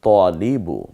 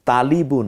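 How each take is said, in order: First: The first vowel is darkened toward 'o'. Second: The first vowel is a clear, open 'a'. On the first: The speaker calls it right. "আমরা এখানে বলবো" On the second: The speaker calls it wrong. "না হয়ে"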